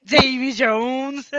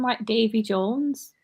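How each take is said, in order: First: Imitating her Wigan Davy Jones, slow and high; mock Wigan. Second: Slow, broad Wigan vowels on Davy Jones; a real Wigan slip, drawn out; slipped into Wigan. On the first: Teasing a friend by echoing her Wigan accent. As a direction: parrot the broad Wigan vowels, teasing. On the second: Real, not acted. Friends notice her Wigan accent slip out. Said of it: "That was a bit Wigan".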